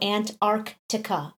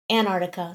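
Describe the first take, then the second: First: The first C sound is clearly pronounced. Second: The first C sound is left out. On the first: "the C is missing, so I don't I don't go Antarctica" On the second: "there's kind of a T in there, but I definitely leave the C off"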